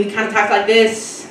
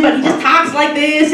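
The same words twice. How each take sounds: First: Said in the usual way. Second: The line done lightly higher as the assistant. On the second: Shown as a demonstration. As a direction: slip into the assistant's breezy voice.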